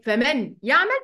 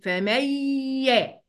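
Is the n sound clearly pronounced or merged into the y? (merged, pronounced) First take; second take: pronounced; merged. First: The n sound is pronounced separately before y. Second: The n sound is dropped and merged into y. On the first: The speaker calls it wrong. "لا" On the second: The speaker calls it right. "هشيل النون خالص واخش على الياء"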